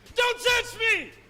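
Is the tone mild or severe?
severe. It is said in a severe, harsh tone.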